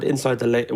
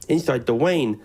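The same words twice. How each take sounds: First: Said in the usual way. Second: Lane said as "Wayne", light Uwe impression; Xantic's Uwe voice. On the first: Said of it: "I was just impersonating Xantic". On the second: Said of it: "don't do the Uwe voice".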